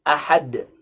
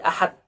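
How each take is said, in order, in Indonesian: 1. Konsonan akhir berakhir dengan pantulan. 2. Konsonan akhir berakhir datar, seperti t.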